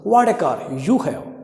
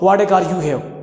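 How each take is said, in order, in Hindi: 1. यह उत्साह के साथ कहा गया है, विस्मयादिबोधक के रूप में। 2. यह सपाट स्वर में कहा गया है, बिना विस्मयादिबोधक के। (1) "इस प्रकार से इंग्लिश में बोला जाता है" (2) "डायरेक्ट मत बोलो ... अच्छा नहीं लगता"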